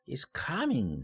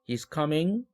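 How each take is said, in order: First: The pitch rises sharply, then falls. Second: The pitch rises at the end. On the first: It expresses surprise. "놀라울 때 ... 쫙 올라갔다가 내려오는 것이죠" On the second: It asks a question. "의문문도 ... 이삼삼 이렇게 올리는 거"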